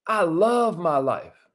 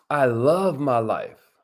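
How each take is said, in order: First: Affirmation. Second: Lower, slow affirmation. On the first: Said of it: "Say it like you mean it". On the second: Host leading viewers in affirmations, low and slow. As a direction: lead the room in it. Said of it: "Say it with us". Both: Shown as a demonstration.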